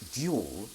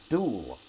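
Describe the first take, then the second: First: It has a y sound before the vowel. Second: It has no y sound before the vowel.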